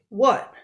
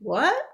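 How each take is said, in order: First: The pitch falls at the end. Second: The pitch rises at the end.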